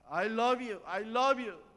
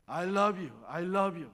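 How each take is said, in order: First: Loud, high shout of love; child's shout. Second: Loud shout of love. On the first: Retold or imitated. Girl shouting love from the hilltop, loud and high. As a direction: shout it across the valley. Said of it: "아이가 소리 지릅니다". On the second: Shown as a demonstration. Mother showing her daughter what to shout, loud. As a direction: call it out loud. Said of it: "하면 소리 질러봐".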